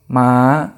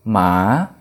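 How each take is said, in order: First: The pitch stays high throughout. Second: The pitch dips and then rises. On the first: "Nada tinggi" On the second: "Dan nada bangkit"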